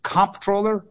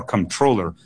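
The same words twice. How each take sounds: First: "comptroller" stressed on COMP; stress on first syllable. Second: "controller" stressed on TROLL; stress on second syllable. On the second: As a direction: push the stress onto the middle of controller. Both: Shown as a demonstration. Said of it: "emphasis on the wrong syllable debate".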